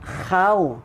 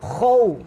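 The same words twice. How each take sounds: First: The sound is thin, with unrounded lips. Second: The sound is thick, with rounded lips. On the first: The speaker calls it wrong. "kalau khaw tipis, salah bacaannya" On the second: The speaker calls it right. "Mulut muncung sikit"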